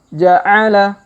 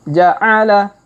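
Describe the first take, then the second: Both takes have the same delivery.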